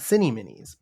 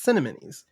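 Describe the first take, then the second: First: The name is split as cinny plus minis. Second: The name begins like the word cinnamon. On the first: The speaker calls it wrong. "not cinny minis" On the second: The speaker calls it right. "it also sounds like cinnamon when you say it. So it's cinnamonies"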